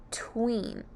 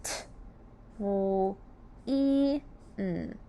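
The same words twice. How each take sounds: First: Said in the usual way. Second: "T, w, e, n" as four separate sounds; "T, w, e, n" slowly, phoneme by phoneme; sounding out. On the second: Shown as a demonstration. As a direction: tap "T", hold "w", "e" and "n" with gaps. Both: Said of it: "Let's sound out tween".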